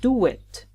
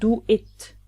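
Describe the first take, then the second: First: The words are linked with a w glide. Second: The two words are said separately, unlinked. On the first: The speaker calls it right. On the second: The speaker calls it wrong. "Not do it"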